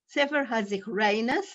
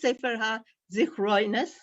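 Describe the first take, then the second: First: It is said with a Lithuanian Yiddish pronunciation. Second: It is said with a Polish Yiddish pronunciation. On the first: "We say" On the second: "We don't say, like the Poles"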